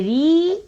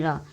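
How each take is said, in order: First: री drawn out with a rising tune; long ee in री, lifted at the end; sound री. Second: र short and open, falling away softly; low, soft र without any ee; sound र. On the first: Teacher repeating the sign's name, long री. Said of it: "इसको बोलते हैं री". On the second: Teacher repeating the contrast for learners, short र. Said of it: "इसको बोलते हैं र". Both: Shown as a demonstration.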